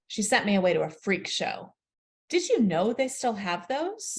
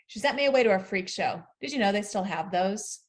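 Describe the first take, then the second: First: A longer, full-stop pause comes after 'freak show'. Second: A quicker pause comes after 'freak show'. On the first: The question follows as a new sentence. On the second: The question is an aside.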